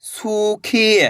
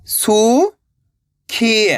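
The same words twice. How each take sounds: First: सूखी joined, long vowels; blended word. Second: सू, long pause, खी; सूखी split slowly, rising then falling; syllable by syllable. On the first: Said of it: "तो मिलके बन जाएगा". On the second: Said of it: "एक अक्षर का उच्चारण करना है". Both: Shown as a demonstration.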